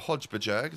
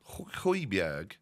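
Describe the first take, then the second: First: The name begins with a 'hodge' sound. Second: The name begins with a 'hoy' sound. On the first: The speaker calls it wrong. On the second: The speaker calls it right.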